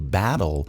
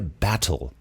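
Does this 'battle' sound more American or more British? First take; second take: American; British. First: It is said with a non-British, more American pronunciation. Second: It is said with a British-leaning pronunciation. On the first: "Eu tô falando battle" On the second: "ele pronuncia battle. O inglês dele é mais pro britânico"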